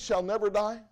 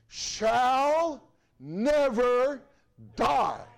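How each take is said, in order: First: It is said at normal speed. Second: It is said slowly.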